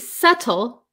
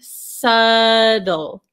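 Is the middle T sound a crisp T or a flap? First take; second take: crisp T; flap. First: The middle T is a crisp, clear T. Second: The middle T is a quick flap sound. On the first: "So you could say subtle" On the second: "in American English, this T becomes a flap T"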